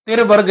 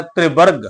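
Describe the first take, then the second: First: ਤਿਰਵਰਗ with the short i straight after t, "tir-barg"; ਤਿਰਵਰਗ with t and r split by the vowel; mispronunciation demo. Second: ਤ੍ਰਿਵਰਗ with t and r joined, "tri-barg"; ਤ੍ਰਿਵਰਗ opening on a tight tr cluster; vowel on the r. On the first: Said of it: "ਤਿਰਵਰਗ ਨਹੀਂ ਕਰਨਾ". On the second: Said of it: "ਇਹਨੂੰ ਵੀ ਆਪਾਂ ਉਚਾਰਨ ਕਰਨਾ ਹੈ". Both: Shown as a demonstration.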